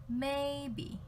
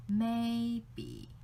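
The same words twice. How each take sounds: First: Maybe held high and level, then dipped. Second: Maybe high then dipped on the be syllable; maybe dipping on be. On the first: Teacher showing first tone in English maybe. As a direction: keep maybe high and flat. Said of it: "It's like first tone and third tone". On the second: Teacher showing maybe with a lowered second syllable. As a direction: dip on be. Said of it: "go down a little bit when you say B". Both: Shown as a demonstration.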